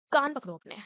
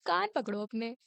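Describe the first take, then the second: First: Higher, louder teacher command; mock stern order. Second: Said in the usual way. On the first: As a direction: snap the punishment order. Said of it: "तो फिर बोलती हैं". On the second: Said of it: "बोलती है".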